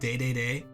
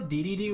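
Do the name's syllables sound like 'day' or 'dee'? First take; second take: day; dee. First: Each syllable is said with an 'ay' vowel. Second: Each syllable is said with an 'ee' vowel.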